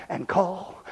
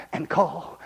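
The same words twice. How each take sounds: The two takes are said the same way.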